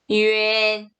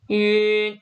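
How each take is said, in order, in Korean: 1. 'yu'에서 'en'으로 미끄러지듯 이어지며 발음됩니다. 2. 짧은 'yun' 소리 하나로 발음됩니다. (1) "유엔 이렇게 읽어주실 수 있어야 됩니다" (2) "윤 이게 아니라"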